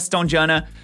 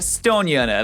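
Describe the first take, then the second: First: The middle consonant is an English j sound. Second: The middle consonant is a y sound. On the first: The speaker calls it wrong. "Stonejana sounds absolutely terrible to me" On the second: The speaker calls it right. "with the old Norse pronunciation"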